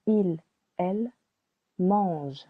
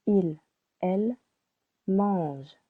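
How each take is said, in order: Both takes have the same delivery.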